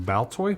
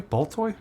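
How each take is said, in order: First: Baltoy said "baltoy" with a clear B; Baltoy, B sound, first guess. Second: Baltoy with an "aw" vowel, rising high; Baltoy as "paltoy", second guess, pitched up; Baltoy said "pawltoy". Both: Shown as a demonstration. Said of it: "Some of these I'm gonna get wrong".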